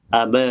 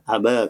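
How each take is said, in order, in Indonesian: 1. Vokal akhir condong sedikit ke arah 'ee'. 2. Vokal akhir condong sedikit ke arah 'ee'.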